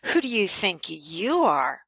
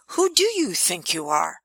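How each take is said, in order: First: It is said in a sneering, snarky tone. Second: It is said as a genuine, curious question. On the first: The speaker feels threatened and is putting the listener down. "someone can come along and say it in a really snarky way" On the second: The speaker sincerely invites reflection on identity. "someone like myself asking you a question during our coaching"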